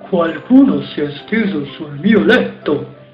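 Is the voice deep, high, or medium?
deep. It is said in a big, deep voice.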